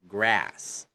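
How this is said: The vowel is a flat front 'a'. "In American"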